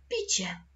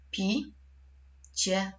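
First: Said in the usual way. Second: "Pi-cie" split into two syllables by a long pause. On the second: Shown as a demonstration. Teacher dividing a word for pupils, syllable by syllable. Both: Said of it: "Podzielimy je na sylaby".

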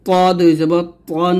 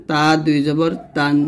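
First: পন said with a heavy, rounded Arabic t; heavy emphatic t on পন; thick To. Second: Light open t in তান; light Arabic t on তান; thin ta. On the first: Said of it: "বলতে হবে মোটা করে". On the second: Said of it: "তখন পাতলা করে বলবেন". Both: Shown as a demonstration.

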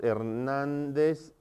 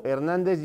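First: Slow, softer "Hernández", syllables stretched; drawn-out dictation. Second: Said in the usual way. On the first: Shown as a demonstration. Teacher showing where Hernández takes its accent, drawn-out dictation. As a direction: stretch out "Hernández" as if spelling it while typing. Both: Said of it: "Hernández lleva acento en la A".

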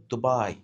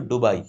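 First: The lighter American D at the start of "দুবাই"; American accent pronunciation. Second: "ডুবাই" with a hard retroflex D, Indian accent; Indian accent pronunciation. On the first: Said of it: "তুমি যদি American accent". ("দুবাই" American উচ্চারণে, নরম দ দিয়ে) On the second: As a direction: curl the tongue back for the D in "ডুবাই", Indian-style. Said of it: "Indian accent হচ্ছে ডুবাই". ("ডুবাই" ভারতীয় উচ্চারণে, শক্ত ড দিয়ে) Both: Shown as a demonstration.

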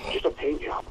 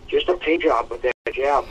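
First: Softer, savoring repeat of paint job; quiet admiring echo. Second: Said in the usual way. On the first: Real, not acted. Host echoes his own praise of the fight, softly. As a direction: murmur it again, to himself, impressed.

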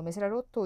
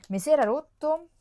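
First: Said in the usual way. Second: Higher and much louder, stretching era; mock-tragic cry about a broken product; dismayed outburst. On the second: Vlogger to her viewers, dismayed outburst.

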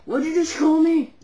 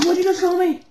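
First: Loud offended demand; angry. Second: High furious yell. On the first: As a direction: confront the insult. Offended prank call victim. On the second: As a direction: scream the question louder. Offended repeat, louder. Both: Acted.

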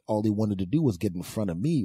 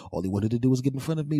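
First: Said in the usual way. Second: "All he wanted to do was get in front of me" rushed, higher and louder; faster, higher exasperated repeat. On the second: Shown as a demonstration. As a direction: fire it off again, exasperated. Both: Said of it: "repeated faster".

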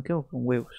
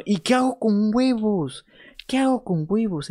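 First: Said in the usual way. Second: Mock panic. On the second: Streamer at a loss with the eggs, mock-panicked high whine. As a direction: throw it up high like a silly crisis.

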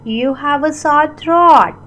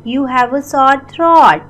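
Both takes have the same delivery.

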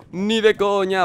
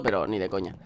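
First: Higher, firmer repeat; emphatic. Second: Said in the usual way. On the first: Real, not acted. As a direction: deny it outright.

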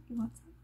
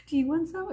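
First: Soft, offhand imitation; understated offer. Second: High, mocking imitation; exaggerated mock-polite offer, pitched up; making-fun-of-people voice. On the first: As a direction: quietly toss the offer out. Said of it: "No, she wasn't like". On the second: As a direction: put on a higher voice to make fun of her. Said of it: "It's like my making fun of people voice".

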